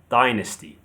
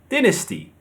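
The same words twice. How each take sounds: First: The stress is on the first syllable. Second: The stress is on the second syllable. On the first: "The stress is on the first syllable" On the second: "The stress is on the second syllable"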